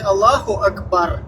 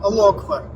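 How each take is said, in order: First: A 'u' vowel links the two words. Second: No vowel links the two words. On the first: The speaker calls it right. "как это правильно произносится" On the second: The speaker calls it wrong. "то есть не Аллаху Акбар"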